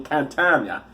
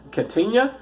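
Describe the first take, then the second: First: Said in the usual way. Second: Catania higher, rising at the end; questioning repeat. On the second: Real, not acted. Repeats place name as a question.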